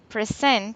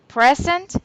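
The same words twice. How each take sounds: First: The stress is on the second syllable. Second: The stress is on the first syllable. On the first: It is the verb. "is the verb" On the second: It is a noun meaning a gift. "Present is a gift"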